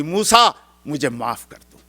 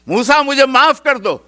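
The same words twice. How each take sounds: First: Said in the usual way. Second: High, loud begging cry; a drowning man's loud cry for forgiveness; desperate plea. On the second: Acted. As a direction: beg for mercy as the earth swallows you. Drowning Qarun begs forgiveness.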